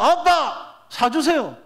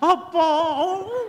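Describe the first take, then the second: First: It is said in a plain, confident tone. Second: It is said in a groveling, wheedling tone.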